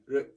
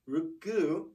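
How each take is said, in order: First: The final vowel is cut off. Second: The final vowel is fully sounded. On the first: "It just kind of cuts that off" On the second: "is the normal sound"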